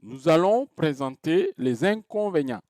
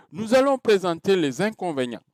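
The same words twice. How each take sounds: First: "Nous allons présenter les inconvénients" in measured groups, peak on "allons", fall at the end; varied falling intonation. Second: "Nous allons présenter les inconvénients" starting high on "allons", falling to the end; vary the pitch, high at first, then let "inconvénients" drop; falling statement intonation. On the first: Teacher repeating the example for students, deliberate varied intonation falling on "inconvénients". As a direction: spell out the rise and fall phrase by phrase, dropping on "inconvénients". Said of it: "ça varie".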